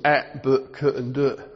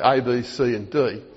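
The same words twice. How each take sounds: First: Each letter is said as its phonetic sound. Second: Each letter is said by its alphabet name. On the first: "the way we teach it to children" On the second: "you'd say"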